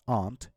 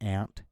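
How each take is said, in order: First: The word is said in a British accent. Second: The word is said in an American accent. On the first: "in normal or neutral accent, it's pronounced as aunt" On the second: "in American it'll be different. It'll be pronounced as ant"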